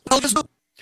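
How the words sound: It is said as an emphatic, exclaimed question.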